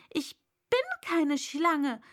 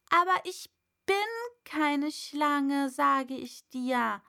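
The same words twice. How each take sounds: First: Raised, louder indignant denial. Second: Louder, insistent protest; calling out. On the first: Alice indignantly denying being a snake. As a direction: protest it, offended. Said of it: "sagte Alice mit Entrüstung". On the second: Alice calling out to the pigeon, louder. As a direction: call it out firmly. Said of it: "rief Alice". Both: A narrator's reading.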